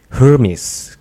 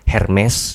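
First: The name is said with an American pronunciation. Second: The name is said with a Batak pronunciation. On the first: "Biasanya tuh kalau US, Amerika gitu Hermes gitu" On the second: "nah itu mungkin orang Batak mungkin"

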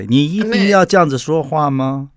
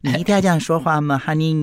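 First: It sounds irritated, with a sharp edge. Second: It sounds sweet, in a raised pitch.

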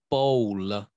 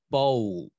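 First: An extra syllable follows the L, Indian style. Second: The final L is fully pronounced, American style.

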